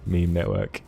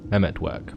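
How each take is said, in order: First: The name is said as two words. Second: The name is blended into one word. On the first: The speaker calls it wrong. "I've always called it the Meme Network ... that's not how you say it at all" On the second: The speaker calls it right. "It's actually like the Memetwork"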